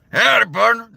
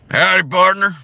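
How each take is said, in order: First: Higher, louder drawled "Howdy, partner"; Howdy partner as a gruff cowboy; cowboy greeting, right take. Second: Failed cowboy take. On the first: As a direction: land the cowboy Arthur greeting. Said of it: "There it is". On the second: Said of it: "No, wait a minute". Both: Shown as a demonstration.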